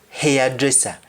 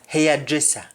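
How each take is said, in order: Both takes have the same delivery.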